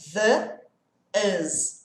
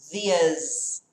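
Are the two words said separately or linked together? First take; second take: separately; linked. First: The two words are said apart. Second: The two words run together as one. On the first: "Se eu falasse separado" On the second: "Quando eu junto, olha o som"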